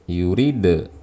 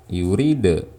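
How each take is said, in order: No difference in how they are said.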